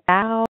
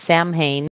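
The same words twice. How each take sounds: First: Only the S and N sounds come through. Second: It is said much as it is spelled. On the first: The speaker calls it right. "the only things that you can hear the S in the N" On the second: The speaker calls it wrong. "I thought it was Samhain, but it's nothing like that"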